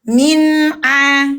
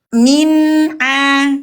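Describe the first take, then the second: Both takes have the same delivery.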